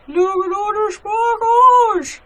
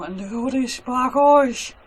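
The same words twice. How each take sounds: First: High, slow gush over the sparkles; excited gushing. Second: Said in the usual way. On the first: Real, not acted. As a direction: coo at the glitter, delighted. Gushing over glittery soap.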